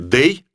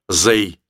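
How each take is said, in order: First: The word begins with a d sound. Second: The word begins with a z sound. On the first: The speaker calls it right. "Лучше скажите «дэй»" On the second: The speaker calls it wrong. "чем «зэй»"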